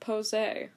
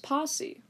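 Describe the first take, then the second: First: The word ends with an 'ay' sound. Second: The word ends with a short 'ee' sound. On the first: The speaker calls it wrong. "not Posé. Because I don't think posé is a word" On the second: The speaker calls it right. "And then I realized that was Posse"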